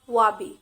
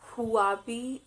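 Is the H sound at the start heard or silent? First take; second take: silent; heard. First: The word starts without any H sound. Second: The word starts with an audible H sound. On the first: The speaker calls it right. "The sound of H is silent here" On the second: The speaker calls it wrong. "It's not Huawei"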